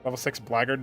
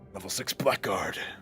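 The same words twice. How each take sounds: First: Blackguard is run together in its usual reduced form. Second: Blackguard is said as two clear words, black guard. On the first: The speaker calls it right. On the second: The speaker calls it wrong.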